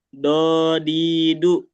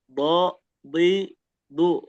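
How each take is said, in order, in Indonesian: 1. Konsonan itu dibuat dengan ujung lidah. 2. Konsonan itu dibuat dengan sisi lidah. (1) "Kalau pakai ujung lidah jadinya do di du" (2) "Sama bo bli bu"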